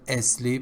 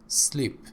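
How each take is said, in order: First: An extra vowel is added before the s. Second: The word starts directly with the s sound. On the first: The speaker calls it wrong. "another mispronunciation... It's not asleep" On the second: The speaker calls it right. "it's sleep"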